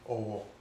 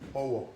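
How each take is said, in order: First: It carries the tone pattern meaning respect. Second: It carries the tone pattern meaning broom. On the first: It means respect. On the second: It means a broom.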